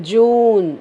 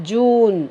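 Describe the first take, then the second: Both takes have the same delivery.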